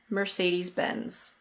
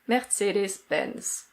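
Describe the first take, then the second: First: It is said in an American accent, r pronounced. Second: It is said with a German pronunciation. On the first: "In American English, the R is pronounced" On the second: "in German, this is pronounced Mercedes-Benz"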